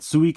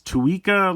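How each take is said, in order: First: The word begins with an S sound. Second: The word begins with a T sound. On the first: It is the Japanese word for watermelon. "Suica is the Japanese word for watermelon" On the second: It echoes the name of a related item. "a lot of people kind of pronounce it as Tuika"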